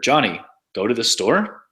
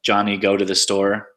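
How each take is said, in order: First: The intonation makes it sound like a question. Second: The pitch stays flat like a statement. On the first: It asks whether this happened. "There's questions like" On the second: It reports a fact. "statements, which are just kind of flat"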